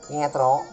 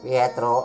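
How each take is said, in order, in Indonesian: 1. Suaranya tipis, tinggi, dan cempreng. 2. Suaranya rendah, serak, dan berat. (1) "di suaranya Gareng yang cenderung cempreng" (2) "suara Bagong yang cenderung sember"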